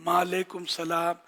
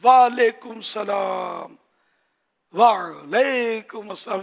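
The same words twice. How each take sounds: First: "وعلیکم السلام" said quickly without the ʿain; rushed "وعلیکم السلام" with the ʿain dropped; wrong reply. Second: Slow "وعلیکم السلام" with a clear throaty ʿain; ʿain pronounced. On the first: (عین کے بغیر جلدی "وعلیکم السلام") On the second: (عین حلق سے نکال کر آہستہ "وعلیکم السلام") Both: Shown as a demonstration. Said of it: "جو عین نکال سکتا ہے".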